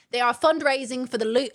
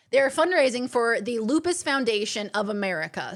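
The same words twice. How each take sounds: First: A slight, unplanned British accent. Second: Said in the usual way. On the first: Real, not acted. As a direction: let a British accent slip in without meaning to. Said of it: "I don't know why I've gone into a British accent". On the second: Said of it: "I'm so sorry".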